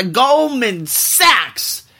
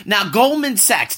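First: Goldman Sachs!, very slow, stretched and higher; drawn-out exclamation. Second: Said in the usual way. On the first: Shown as a demonstration. Host announcing the villain, drawn out very slowly. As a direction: stretch each syllable of "Goldman Sachs" for drama.

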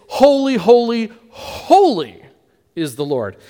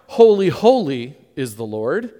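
First: Each "holy" hit louder, the last one falling; triple emphasis. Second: Said in the usual way. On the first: Shown as a demonstration. Preacher showing the triple "holy" to the congregation, emphatic. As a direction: stress every "holy" in turn, then let "is the Lord" settle. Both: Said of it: "it doesn't use a double emphasis".

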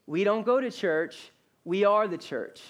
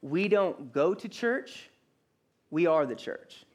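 First: "go" and "are" pressed hard, even pace; stress on GO and ARE. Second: Slow, with a pause after "church" and a rise on it; "church" rising, then a pause before "we are the church"; slow emphatic line. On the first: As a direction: punch "go", then hit "are". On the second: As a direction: let "church" rise and hang before the answer. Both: Shown as a demonstration. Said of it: "hear me say this".

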